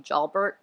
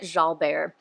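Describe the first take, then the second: First: The name ends with a plain 'bert' sound. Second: The name ends like 'vair', with no t. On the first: "So I guess it could be Jalbert" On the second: "once I got the Javert thing in my head, I started pronouncing it Jalbert"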